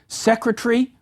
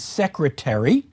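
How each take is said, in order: First: A syllable is reduced, making the word shorter. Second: Every syllable is pronounced with its full weight. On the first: "in British English you hear pronunciations such as" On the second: "rather than"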